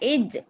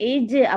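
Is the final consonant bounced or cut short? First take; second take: cut short; bounced. First: The final consonant stops dead with no echo. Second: The final consonant is released with a bouncing echo. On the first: The speaker calls it wrong. "இஜ் சொல்லாம" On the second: The speaker calls it right. "இஜு அப்படின்னு அசைக்கணும்"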